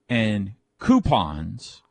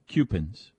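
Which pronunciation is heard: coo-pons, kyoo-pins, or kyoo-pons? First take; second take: coo-pons; kyoo-pins. First: It starts with 'coo' and ends with 'pons'. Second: It starts with 'kyoo' and ends with 'pins'. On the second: "Coupons would be the letter Q-P-I-N-S"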